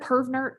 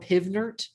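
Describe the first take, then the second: First: The first syllable has a strong R sound. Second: The first syllable has a plain vowel, no R. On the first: "I think it's all the retroflexed R's" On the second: "Pivnert because the P V N R T"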